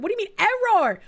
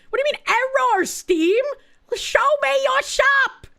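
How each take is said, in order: First: Puzzled, irritated ask; what is this error, mildly fed up; first annoyed take; annoyed question. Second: Higher, louder exasperated demand; second take, more fed up; louder exasperation. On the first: Steam store fails to load. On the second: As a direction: call out Steam for the error. Steam store still failing. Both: Real, not acted.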